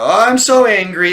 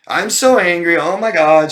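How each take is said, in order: First: Much higher, much louder, hammed-up fake fury; mock fake anger. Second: Much higher, much louder, overacted fake rage; mock fake anger. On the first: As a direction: mimic a badly faked outburst, overdone on purpose. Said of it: "fake these kind of emotional, angry outbursts". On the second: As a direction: shout it like an outburst nobody should believe. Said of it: "you aren't even trying to convince me".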